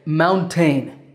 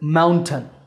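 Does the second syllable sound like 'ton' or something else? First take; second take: something else; ton. First: The second syllable does not sound like 'ton'. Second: The second syllable sounds like 'ton'. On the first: The speaker calls it wrong. "I sometimes hear my English students say mountain" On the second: The speaker calls it right. "but that second syllable is ton"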